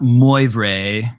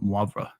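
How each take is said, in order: First: Moi vrai said slowly and louder as "moy vray"; mispronunciation demo. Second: Moivre said softly as "mwahv-ruh", subtle ending; French pronunciation. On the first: Teacher warns the class off this version, mispronunciation demo. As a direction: overpronounce moi vrai, two full English-sounding syllables. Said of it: "it's not moi vrai". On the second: Teacher models the name for the class, French pronunciation. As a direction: say moivre lower and softer, French "mwah" then a light "vr". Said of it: "just a subtle v sound". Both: Shown as a demonstration.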